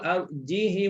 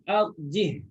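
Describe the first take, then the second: First: A short i vowel follows the h. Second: The word ends on a bare h sound. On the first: This follows the Qalun reading. "dibaca dengan ha berbaris... Tak dipanjangkan" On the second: This follows the Hafs reading. "Hafs baca matikan ha"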